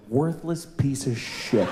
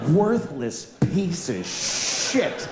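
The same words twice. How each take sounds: First: Muttered insult. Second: Slow repeated insult. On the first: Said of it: "this came out of my mouth". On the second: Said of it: "what an indictment". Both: Retold or imitated.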